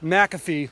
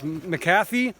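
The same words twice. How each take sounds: First: It is pronounced like the software name. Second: It is pronounced like the word McCafe. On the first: "like the Mc- McAfee software" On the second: "like McCafe from McDonald's"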